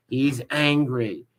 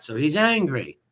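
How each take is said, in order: First: "He's angry." drawn out slowly, each word weighted; slow mocking repeat. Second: Said in the usual way. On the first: Shown as a demonstration. Streamer mocking a rival for viewers, "He's angry." said slowly.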